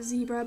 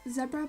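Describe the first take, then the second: First: The word is said with an American pronunciation. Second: The word is said with a British pronunciation. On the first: "if you're in America you probably pronounce it zebra" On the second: "I prefer to pronounce it zebra because, well, I'm British"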